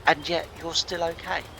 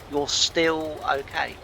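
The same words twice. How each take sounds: First: Said in the usual way. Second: You're still okay drawn out slowly, weight on still; slow, emphatic repeat. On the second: Retold or imitated. Therapist reassuring him he is fine, slow and emphatic. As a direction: repeat it slower, leaning on still.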